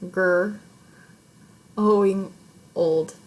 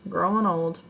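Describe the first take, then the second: First: The word is split by a pause mid-word. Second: The word is said smoothly without a pause. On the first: The speaker calls it wrong. "that was painful for me" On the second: The speaker calls it right. "I'm going to read that differently"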